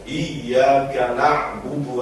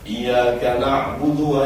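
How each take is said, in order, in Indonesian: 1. Bunyi y-nya ditahan dan ditekan, jadi dobel. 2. Bunyi y-nya pendek dan tunggal. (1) "Sing leres iya, ... Jadi rada ngedel titik" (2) "kurang ngedel titik lho"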